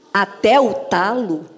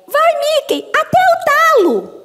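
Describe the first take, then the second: First: Said in the usual way. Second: Very high, squeaky cartoon voice; high-pitched cheer, last words stretched out; Minnie. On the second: Dubber reading her Minnie script line, in a high cartoon voice. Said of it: "veio no meu texto da Minnie".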